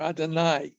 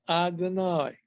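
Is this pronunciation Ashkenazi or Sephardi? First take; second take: Sephardi; Ashkenazi. First: It is said with a Sephardi pronunciation. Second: It is said with an Ashkenazi pronunciation.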